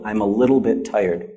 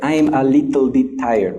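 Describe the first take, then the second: First: It is said with an American accent. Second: It is said with a Vietnamese accent. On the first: The speaker calls it right. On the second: The speaker calls it wrong.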